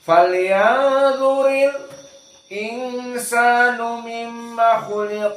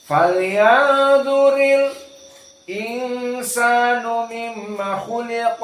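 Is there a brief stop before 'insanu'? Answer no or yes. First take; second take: Yes; Yes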